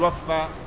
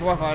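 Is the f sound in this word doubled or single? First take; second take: doubled; single. First: The f sound is doubled and held longer. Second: The f sound is short and single. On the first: He paid out something in full. The speaker calls it wrong. "لا تقول وفى" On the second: He kept his pledge and did not betray. The speaker calls it right. "الصحيح وفى"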